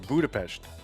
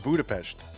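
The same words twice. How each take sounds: First: The s is said as an sh sound. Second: The same.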